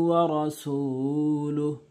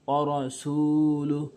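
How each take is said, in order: Both takes have the same delivery.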